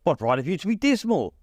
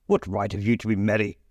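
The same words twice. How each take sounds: First: Higher, bright playful comeback. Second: Scrooge sneering at merry in his own voice; grumpy Scrooge retort. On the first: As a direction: toss the question back cheerfully. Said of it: "returned the nephew gaily". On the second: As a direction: sour challenge. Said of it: "said Scrooge". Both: A narrator's reading.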